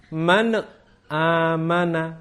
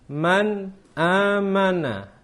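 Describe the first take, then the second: First: An extra 'e' vowel follows the n. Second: The n is closed with no added vowel. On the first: The speaker calls it wrong. "ada bunyi e, itu harus kita hindari" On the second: The speaker calls it right. "Bacaan yang benar adalah man amana"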